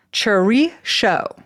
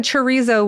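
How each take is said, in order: First: Chorizo said slowly as cho-REE-sho; deliberate, stretched Chorizo with a sh sound; Basque pronunciation. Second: Chorizo ending in zo; chorizo with a z in the last syllable; Spanish pronunciation. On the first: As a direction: end Chorizo in sho instead of zo. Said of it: "is the Basque". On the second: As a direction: say chorizo as chuh-REE-zo. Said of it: "with the Spanish pronunciation". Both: Shown as a demonstration.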